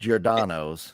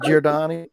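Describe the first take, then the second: First: The name ends with an 'oh' sound. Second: The name ends with an 'ee' sound. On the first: The speaker calls it right. "because it's Giordano's" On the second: The speaker calls it wrong. "Now you even got me saying it wrong"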